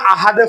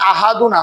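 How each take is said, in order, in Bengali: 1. শব্দটি 'd' দিয়ে শেষ হয়, শেষের অংশ বাদ যায়। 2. শব্দটি পুরো '-un' অংশ দিয়ে শেষ হয়। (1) "আমরা পড়ার সময় আহাদে পড়ি, ... আমি এখানে অক্ষ করছি" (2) "এখানে আহাদুন আছে"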